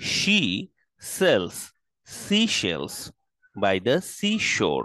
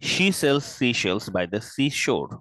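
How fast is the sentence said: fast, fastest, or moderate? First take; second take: moderate; fast. First: It is said at a moderate pace. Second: It is said a little faster.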